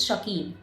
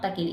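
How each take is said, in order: First: शकील with an initial "sha" sound; corrected pronunciation. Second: तकील with an initial "ta" sound; mistaken pronunciation. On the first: Teacher correcting her slip for students, शकील said with a sh. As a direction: say शकील, opening on sh instead of t. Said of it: "it's शकील". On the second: Teacher quoting her own slip to students, तकील said with a t. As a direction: say तकील, opening on t instead of sh. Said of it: "sorry, वजह शकील, not तकील". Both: Shown as a demonstration.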